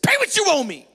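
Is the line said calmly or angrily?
angrily. It is said in a harsh, angry voice.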